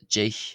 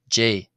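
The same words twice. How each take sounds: First: The final consonant is a strong, harsh rasp. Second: The final consonant is a soft breathy h-sound. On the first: The speaker calls it wrong. "not generally pronounced J" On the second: The speaker calls it right. "with the C H either just becoming nearly like a, a H sound, it's sort of soft aspiration"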